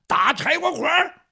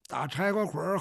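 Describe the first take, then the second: First: High, loud battle call; shouted command. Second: Said in the usual way. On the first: Acted. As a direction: call it out hard to a companion. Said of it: "韩章就喊". (高声大喊)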